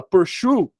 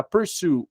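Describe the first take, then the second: First: "pursue" said with a sh sound, like "pur-shoo"; pronúncia errada. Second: Said in the usual way. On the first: Retold or imitated. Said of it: "ele fala pursue". ("pursue" errado, com som de "xu") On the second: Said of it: "em vez de pronunciar pursue".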